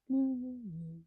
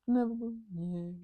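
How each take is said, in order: Both takes have the same delivery.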